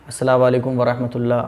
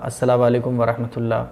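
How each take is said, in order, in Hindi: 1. आखिरी 'u' हटा दिया जाता है और 'walekum' से जुड़ जाता है। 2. आखिरी 'u' हटा दिया जाता है और 'walekum' से जुड़ जाता है।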